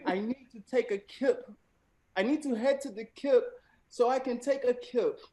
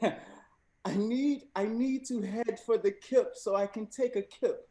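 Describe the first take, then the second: First: Second go at a British accent, a bit higher; rereading it in a lightly put-on British accent. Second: Lightly put-on British accent, pitched up; a host gamely trying British English. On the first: Host repeating the example sentence in a hammed-up British accent. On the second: Host reading the slang sentence to contestants in a mild British accent. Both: Shown as a demonstration. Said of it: "I will be attempting to read the sentence in a British accent".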